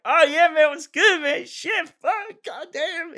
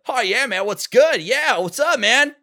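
First: Much higher, laid-back stoner surfer voice; lazy surfer dude drawl, way up high; Zen voice. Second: Higher, upbeat cartoon hedgehog voice; breezy cool-kid Sonic take; Sonic impression. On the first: Voice actor demos his alternate audition take as stoner Zen. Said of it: "I did my take as Zen". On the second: Voice actor demos his first audition take, upbeat Sonic voice. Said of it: "my Roger Craig Smith Sonic impression". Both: Shown as a demonstration.

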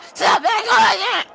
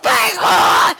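First: Squealing falsetto. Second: Mock shriek. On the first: Acted. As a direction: stretch it out in a shrill falsetto. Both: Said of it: "I don't know why I sound like a smoker".

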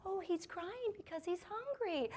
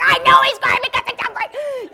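First: Put-on high, soft, slow singsong to a toddler; hushed, drawn-out motherly reassurance; soothing mom. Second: High, very loud frazzled-mom yell; hammed-up shriek at the end of her rope; exasperated shout. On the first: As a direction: gently explain to a small child. Tense mom calmly answers her toddler. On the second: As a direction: snap and scream back at the kid. I'm getting more tense.

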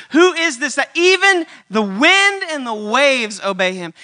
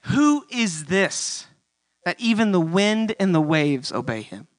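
First: Louder, slow, every word pressed; emphatic repeat. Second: Slow, hushed amazement; drawn-out question full of wonder; awed wonder. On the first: Shown as a demonstration. Preacher pressing the disciples' question, louder and slow. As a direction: hammer home the question. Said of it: "Like, who is this guy?". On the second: Retold or imitated. Disciples after the calm, slow and hushed. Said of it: "the disciples say".

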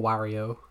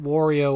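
First: "Wario" with an open "ah", WAH-ree-oh; second pronunciation option. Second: "Wario" with an "or" vowel, WOR-ee-oh; first pronunciation option. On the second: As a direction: say "Wario" starting like "war". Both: Shown as a demonstration. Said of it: "Is it Wario or Wario?".

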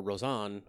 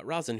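First: Rosan with a full vowel in the ending; alternate pronunciation. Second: Rosen with a light, unstressed ending; alternate pronunciation. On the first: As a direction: say Rosan as ro-ZAHN, ending drawn open. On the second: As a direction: say Rosen like an ordinary English surname. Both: Shown as a demonstration. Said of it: "however it's pronounced".

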